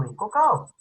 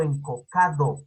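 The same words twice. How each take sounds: First: "encocao" with the d dropped; as pronounced on coast. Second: "encocado" with every syllable and the d sounded; as written. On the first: Teacher contrasting speech with spelling, "encocao" without the d. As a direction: end "encocao" on a gliding a-o, no d. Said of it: "pero lo pronuncia como encocao". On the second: Teacher showing the written form, "encocado" carefully with its d. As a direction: spell it out by ear: "encocado", full -do ending. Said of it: "lo escribe como encocado". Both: Shown as a demonstration.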